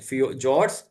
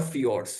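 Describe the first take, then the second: First: Fjords with a J sound at the start, "jords". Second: Fjords with an F and an "ee" glide, "fi-ords"; fjords said "fee-ords". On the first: (fjords का उच्चारण "जॉर्ड्स", शुरू में ज की आवाज़) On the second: (fjords का उच्चारण "फियॉर्ड्स", शुरू में फ की आवाज़) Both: Shown as a demonstration. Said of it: "दो नाम से होते हैं".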